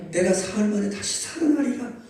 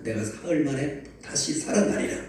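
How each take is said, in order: First: Raised, emphatic repeat. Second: Said in the usual way. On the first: Shown as a demonstration. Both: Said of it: "따라서 합시다".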